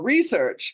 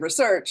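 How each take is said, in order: First: The word is said in an American way. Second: The word is said in a British way.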